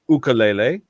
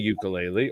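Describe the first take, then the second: First: The word is said the Hawaiian way. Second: The word is said the common English way. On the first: The speaker calls it right. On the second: The speaker calls it wrong.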